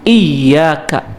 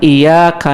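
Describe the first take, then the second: First: The y sound is doubled and held. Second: The y sound is short and single. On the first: It means you alone we worship. The speaker calls it right. "Ya-nya itu pakai tasydid. Jadi harus ditekan" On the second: It means we worship the sunlight. The speaker calls it wrong. "Kalau tidak ditekan"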